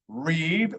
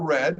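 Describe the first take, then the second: First: It is the present-tense pronunciation of the word. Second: It is the past-tense pronunciation of the word. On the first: The action happens now. "depending on if it's present tense or past tense" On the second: The action happened before. "depending on if it's present tense or past tense"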